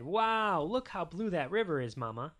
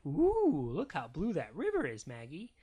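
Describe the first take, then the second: First: A touch of fatherly wonder; amazed Daddy. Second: Cooing Mama. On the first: Daddy admiring the river to Mama, lightly voiced amazement. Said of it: "And Daddy said". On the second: Mama showing baby Maggie the river, lightly cooing. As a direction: coo a little at a baby. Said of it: "And Mama said". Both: A narrator's reading.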